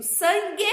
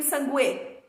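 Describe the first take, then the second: First: Said in the usual way. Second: Sangue said as "san-GU-E", u sounded; wrong pronunciation. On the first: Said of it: "eu digo sangue". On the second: Shown as a demonstration. Teacher asking which she says, mispronounced sangue with sounded u. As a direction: sound the silent u in sangue, ending in "gwê". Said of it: "ou eu digo sangue?".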